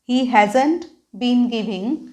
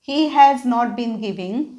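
First: Has not is contracted into one word. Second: Has not is said as two full words.

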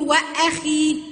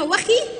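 First: The glottal stop is clearly pronounced before the vowel. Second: The glottal stop is dropped and the words run together. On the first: The speaker calls it right. "ولا لازم اقول واخي؟" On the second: The speaker calls it wrong. "في حاجه اسمها واخي"

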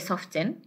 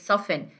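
First: The 't' sound is pronounced in the middle. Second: The 't' sound is silent in the middle. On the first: The speaker calls it wrong. "We don't say soften" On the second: The speaker calls it right. "it is soften. This one is silent"

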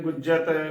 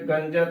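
First: The first syllable has u with a doubled j. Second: The first syllable has a nasal a vowel. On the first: "ਗਲਤ ਉਚਾਰਨ ਹੋਵੇਗਾ" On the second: "ਗਲਤ ਉਚਾਰਨ ਹੋਵੇਗਾ"

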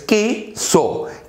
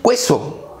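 First: No 'w' sound follows the k sound. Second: A 'w' sound follows the k sound. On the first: The speaker calls it right. "La U no se pronuncia, es" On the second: The speaker calls it wrong. "No es queso"

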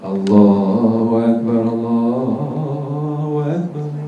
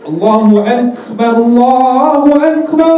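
First: It is said softly. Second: It is said loudly.

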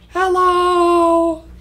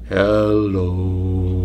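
First: It is said in a very high voice. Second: It is said in a very low voice.

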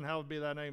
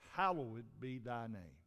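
First: It is rattled off mechanically, without thought. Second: It is said deliberately, letting each word register. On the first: The words are recited without attention to their meaning. The speaker calls it wrong. "said it like this ... they don't even think about what they're saying" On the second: The words are meant and reflected on. The speaker calls it right. "Let's let that sink in"

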